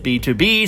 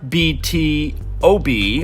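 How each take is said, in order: First: The middle is said as the word 'to'. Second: Each of the four letters is said separately. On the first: The speaker calls it right. "it's B two B" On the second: The speaker calls it wrong. "spelled out letter by letter"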